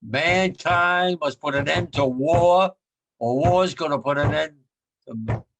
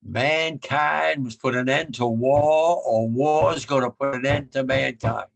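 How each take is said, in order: First: Louder emphatic repeat. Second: Each word weighed slowly; slow solemn quote. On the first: Shown as a demonstration. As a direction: drive it home to the listeners. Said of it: "You hear me?". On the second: Retold or imitated. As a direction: lay it out slowly and gravely. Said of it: "I remember him saying".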